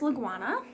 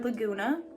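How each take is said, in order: First: The middle syllable sounds like 'gwah'. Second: The middle syllable sounds like 'goo'. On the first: This is the speaker's own habitual pronunciation. "I say Laguana" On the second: This is how some other people pronounce it. "some people say Laguna"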